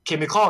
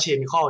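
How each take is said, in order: First: Chemical begun with a K sound; hard C pronunciation. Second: Chemical begun with a "ch" as in chair; soft CH mispronunciation. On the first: Explaining CH spelling to viewers, Chemical with a hard K. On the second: Showing viewers the misreading, Chemical with soft CH. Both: Shown as a demonstration. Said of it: "มันไม่อ่านว่า".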